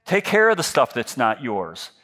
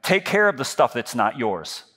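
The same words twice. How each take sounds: The two takes are said the same way.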